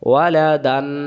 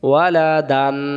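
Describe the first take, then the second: No difference in how they are said.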